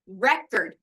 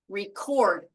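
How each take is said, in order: First: The stress is on the first syllable. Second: The stress is on the second syllable. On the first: It names a disc that plays music. "This is a disc that plays music" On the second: It names the act of capturing music. "this is what you do to get the music on the disc"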